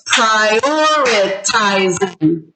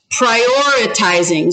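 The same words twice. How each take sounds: First: "prioritizing" slowly split as pri-or-i-ti-zing; syllable by syllable. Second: Said in the usual way. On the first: Shown as a demonstration. Teacher sounds out a word for counting, "prioritizing" syllable by syllable. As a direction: stretch "prioritizing" with a gap between syllables. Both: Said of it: "how many syllables was that".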